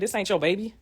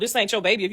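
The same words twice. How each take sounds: First: It is said low and quietly. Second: It is said loud and worked up. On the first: The denial is muted and unconvincing. "She said it very low" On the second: The denial is forceful and emphatic. "how most women would have said"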